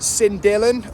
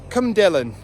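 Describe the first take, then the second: First: The name is said with an English pronunciation. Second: The name is said with a Welsh pronunciation.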